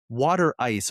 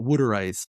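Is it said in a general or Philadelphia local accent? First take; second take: general; Philadelphia local. First: It is said in a general accent. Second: It is said in a Philadelphia local accent.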